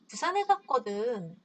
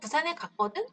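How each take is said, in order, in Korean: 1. 차분하고 중립적인 설명처럼 들려요. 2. 반박하는 것처럼 들리고, 살짝 짜증이 난 것 같아요. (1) "이유를 설명하는 해야 될 때" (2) "이렇게 반박하는 경우죠"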